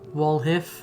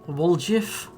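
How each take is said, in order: First: The middle consonant is an H sound. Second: The middle consonant is a J sound. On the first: The speaker calls it right. "Like pronounce the J like an H" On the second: The speaker calls it wrong. "That can't be right"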